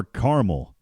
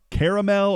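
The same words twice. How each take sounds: First: "caramel" as CAR-mul; two-syllable caramel. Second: "caramel" as KARR-uh-mel; three-syllable caramel. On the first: Radio host offering co-host the other way, "caramel" as CAR-mul. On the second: Radio host asking co-host which way to say it, "caramel" as KARR-uh-mel. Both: Shown as a demonstration. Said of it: "do you say car-, caramel or caramel".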